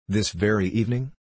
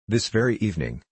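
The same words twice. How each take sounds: First: "This very evening?" rising at the end on evening; surprised question. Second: "This very evening," falling firmly, weight on very; calm confirmation. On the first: Stewart questions Fogg's plan to leave tonight, rising question. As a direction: ask it back in disbelief, tune climbing. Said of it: "asked Stewart". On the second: Fogg confirms his departure to Stewart, firm falling statement. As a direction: settle it, tune dropping to a close. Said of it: "returned Phileas Fogg". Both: A narrator's reading.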